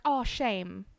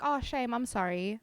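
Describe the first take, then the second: First: Fond, drawn-out "oh, shame"; cooing at cuteness. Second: Sympathetic "oh, shame"; pitying. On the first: Streamer showing how South Africans react to something cute, fondly. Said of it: "When we see something cute". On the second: Streamer consoling someone over lost sunglasses, pitying. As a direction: gently console someone over a small loss. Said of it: "I'm showing pity". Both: Acted.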